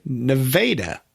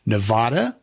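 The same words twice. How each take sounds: First: Nevada said as ne-VAY-da; the a of Nevada like in day; correct way. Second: Nevada said as ne-VAH-da; the broad ah vowel in Nevada; wrong way. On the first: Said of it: "the correct way". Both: Retold or imitated.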